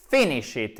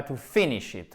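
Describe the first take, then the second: First: "finish it" stressed on the first syllable of "finish"; accent sur la première syllabe. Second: "to finish it" with misplaced stress on "finish"; wrongly delay the stress in "finish"; mauvaise accentuation. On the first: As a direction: punch the start of "finish", let the rest fall. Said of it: "accent tonique sur la première syllabe". (« finish it » accentué sur la première syllabe) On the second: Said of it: "et non pas". (« finish » accentué à tort sur la deuxième syllabe) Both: Shown as a demonstration.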